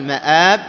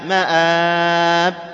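First: The second long vowel is held short. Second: The second long vowel is held very long. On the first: "المد العارض للسكون بأنواعه الثلاثة" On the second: "المد العارض للسكون بأنواعه الثلاثة"

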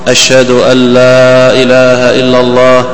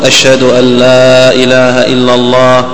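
No difference in how they are said.

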